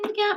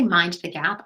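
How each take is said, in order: First: It is said in a soft, uncertain tone. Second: It is said in a firm, commanding tone. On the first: It is optional and not very important. The speaker calls it wrong. "not in a, oh, mind the gap maybe" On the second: This is important and must be done. The speaker calls it right. "I say it in a demand tone"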